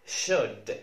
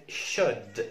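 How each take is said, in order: Both takes have the same delivery.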